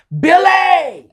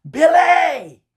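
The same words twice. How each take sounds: First: Sudden high shouted name; mom's yell. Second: High, loud shouted name; mom's yell again. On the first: Mom yelling her son's name down the phone, loud shout. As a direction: yell his name like an angry mama. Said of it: "She yells at me". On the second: Mother yelling at her son again on the phone, loud shout. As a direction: bark the name like a fed-up mama. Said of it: "She yelled at me again". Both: Retold or imitated.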